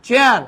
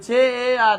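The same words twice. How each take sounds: First: "চেয়ার" in one unbroken beat; "চেয়ার" whole and compact; said all together. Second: "চেয়ার" dragged apart as che-e-ar; wrongly broken up. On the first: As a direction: punch out "চেয়ার" as a single piece. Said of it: "একসাথে বলতে হবে". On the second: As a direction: stretch the vowel of "চেয়ার" into separate pieces. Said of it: "এরকম বললে হবে না কিন্তু". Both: Shown as a demonstration.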